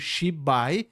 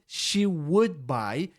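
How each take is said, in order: First: The 'would' is dropped entirely, with no d sound. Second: The full word 'would' is clearly pronounced. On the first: "o D deixou de ser pronunciado" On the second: "a pessoa quis dizer she would buy"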